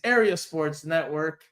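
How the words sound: The name is said with an English accent.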